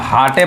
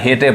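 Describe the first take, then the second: First: Two syllables, 'ah' vowel, final e sounded. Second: Two syllables, 'ay' vowel, final e sounded. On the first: "ना हाटे पढ़ेंगे ... गलत हो जाएगा" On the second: "ना हेटे पढ़ेंगे ... गलत हो जाएगा"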